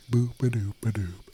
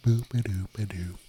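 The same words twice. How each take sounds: First: Said in the usual way. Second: Breathy whispered nonsense sound test; whispered boop. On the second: Shown as a demonstration. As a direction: whisper the boops as a mic test. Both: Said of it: "Does this sound better or worse?".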